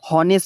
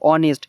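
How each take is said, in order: First: The word begins with an h sound. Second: The word begins with a vowel, no h. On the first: The speaker calls it wrong. "হনেস্ট না কিন্তু" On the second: The speaker calls it right. "এখানে তুমি অনেস্ট উচ্চারণ করো"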